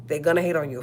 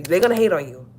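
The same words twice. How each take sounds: First: Said in the usual way. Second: Emphatic. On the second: Real, not acted. Repeated for emphasis.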